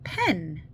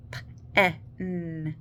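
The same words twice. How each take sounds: First: Said in the usual way. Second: "P, E, N" as puffed p, short e, held n; sounded out. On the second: Shown as a demonstration. Teacher splitting a syllable for parents, "P, E, N" sounded out. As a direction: say "P, E, N" as three phonics sounds with gaps. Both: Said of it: "What do you hear in the syllable".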